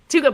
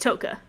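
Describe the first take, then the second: First: The first vowel sounds like 'oo'. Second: The first vowel sounds like 'oh'. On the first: Someone else's way of saying the name. The speaker calls it wrong. "He says Tuka" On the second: The name's actual pronunciation. The speaker calls it right. "but it's Toka"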